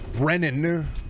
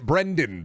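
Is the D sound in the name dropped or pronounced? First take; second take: dropped; pronounced. First: The name is said without the D sound. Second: The name is said with the D sound. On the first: The speaker calls it wrong. "Couldn't pronounce the D" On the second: The speaker calls it right. "It's so easy"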